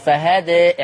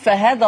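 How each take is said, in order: First: The final vowel is long and slightly raised toward 'e'. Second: The final vowel is short, joined to the next word. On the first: The reader stops on this word. "هتقف عليها بالتقليل بس ... فهدي اعمليها كده" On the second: The word is read straight on into what follows. "لما نقول فهذا الله كده في ألف؟ ... ما فيش لا فتح ولا تقليل في الوسط"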